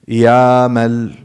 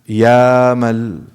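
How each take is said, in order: The two takes are said the same way.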